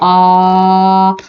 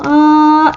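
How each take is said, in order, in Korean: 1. 처음부터 끝까지 낮아요. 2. 처음부터 끝까지 높아요. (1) "평성 낮은 소리예요" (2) "거성"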